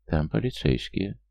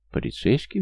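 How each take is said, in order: First: Slow, halting statement; hesitant report. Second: High, rising echo question; surprised. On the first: Friend back from the door with alarming news, slow hesitant report. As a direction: spell out the news slowly. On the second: Young mother hearing police are at her door, surprised question. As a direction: repeat it in surprise, pitch jumping up. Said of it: "удивилась Лера". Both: A narrator's reading.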